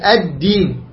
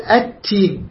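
First: The consonant after 'al' is a d sound. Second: The consonant after 'al' is a t sound. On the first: The speaker calls it right. "لا هي الدين، الدين واضح" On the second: The speaker calls it wrong. "يقول التين، لا هي الدين"

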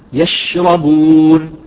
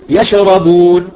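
First: The sh sound is spread out and held longer. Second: The sh sound is cut short with a bounce. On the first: The speaker calls it right. "لا تفشي بها وتعطيها زمن" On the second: The speaker calls it wrong. "بعضهم يقلقلها"

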